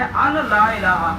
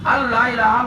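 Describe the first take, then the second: First: A separate n is pronounced before la. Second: The n merges into a doubled l sound. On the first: "असल में अन ला इलाहा, अन है" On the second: "नून जो है खत्म हो गया"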